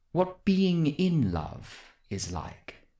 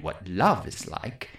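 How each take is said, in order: First: "being in" lifted above the rest; slow, careful emphasis on "being in"; stress on being in. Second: "love" picked out in a low voice; low, careful weight on "love"; stress on love. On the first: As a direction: pick out "being in" to mark the difference. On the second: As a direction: lean on "love" as the word being ruled out. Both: Acted. Corrects the meaning of question.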